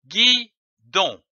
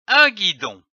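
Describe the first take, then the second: First: "guidon" split into gui, pause, don; syllable by syllable. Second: Said in the usual way. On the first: Shown as a demonstration. Teacher joining syllables for readers, "guidon" sounded out in pieces. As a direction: say "guidon" in two separate beats. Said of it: "L'association de ces syllabes donne". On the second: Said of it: "L'association de ces syllabes".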